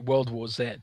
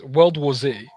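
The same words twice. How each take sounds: First: The Z is said the British way. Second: The Z is said the non-British way.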